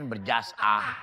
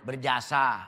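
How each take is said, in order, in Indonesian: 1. Jeda memisahkan kata sebelum suku kata terakhir. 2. Kata itu diucapkan mulus tanpa jeda.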